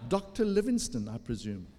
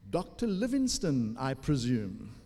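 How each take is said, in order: First: Attempted American accent, rising then dropping. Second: Said in the usual way. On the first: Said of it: "how to do that with American accent". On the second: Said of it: "Actually, no, it was American accent".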